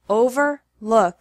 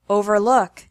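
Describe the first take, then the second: First: The syllables are separated by a pause. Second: The syllables run together without a pause. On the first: "once with the syllables separated" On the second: "once normally"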